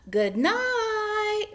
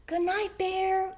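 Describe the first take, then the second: First: High, loud, drawn-out mouse call; louder call. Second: High, airy little mouse call; soft call. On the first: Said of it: "Mouse called a little louder". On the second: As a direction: call gently in a tiny mouse voice. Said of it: "Mouse called softly". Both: A narrator's reading.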